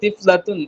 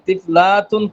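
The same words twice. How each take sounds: First: The short vowels are said quickly and briefly. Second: The short vowels are stretched out and lengthened. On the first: The speaker calls it right. "এখানে পড়তে হবে তিফলাতুন" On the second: The speaker calls it wrong. "তিফলাতুন পড়লে ভুল হয়ে যাবে"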